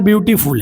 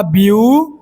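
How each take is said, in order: First: Said in the usual way. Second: beautiful broken into three long beats, byu, tee, ful; syllable by syllable. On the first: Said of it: "यानी तीन syllable का है". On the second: Shown as a demonstration. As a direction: count out each syllable of beautiful with pauses. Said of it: "देखिए यहाँ पर एक मात्रा". (Beautiful को तीन मात्राओं में खींचकर अलग-अलग बोलना)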